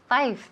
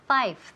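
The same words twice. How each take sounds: First: The final th sound is left off. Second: The same.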